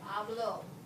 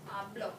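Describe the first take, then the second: First: The final vowel is drawn out longer. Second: The final vowel is cut short. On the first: "I carry this one out a little bit" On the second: "This one, I shorten it"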